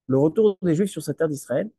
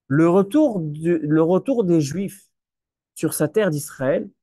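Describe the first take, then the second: First: Said in the usual way. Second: "le retour des Juifs" drawn out slowly, leaning on "retour"; slow emphatic phrasing. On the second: Shown as a demonstration. Rabbi asking his listeners to follow closely, slow and emphatic. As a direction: stretch "retour" out so the room follows every word. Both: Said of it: "suivez-moi bien".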